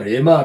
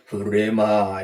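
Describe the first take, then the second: First: The word starts directly with an r sound. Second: The word starts with a breathy h sound. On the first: "보통 우리가 레마, 레마 합니다만" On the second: "히읗 발음이 납니다"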